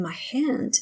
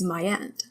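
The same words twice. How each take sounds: First: Said in the usual way. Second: "hand" said as 'and; silent H. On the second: Shown as a demonstration. Teacher showing the French accent, "hand" without its H. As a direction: drop the H of "hand". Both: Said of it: "H is not supposed to be pronounced".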